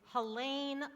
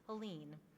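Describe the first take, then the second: First: The last syllable rhymes with pain. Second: The last syllable does not rhyme with pain. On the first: The speaker calls it right. "it's Helene like pain" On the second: The speaker calls it wrong. "they think it's Helene"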